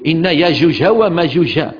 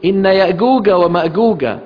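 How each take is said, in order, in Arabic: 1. تُقال بأسلوب اللهجة المغربية. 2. تُقال بأسلوب اللهجة المصرية. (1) "لقرأ مثلا المغربي" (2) "ولقرأ المصري"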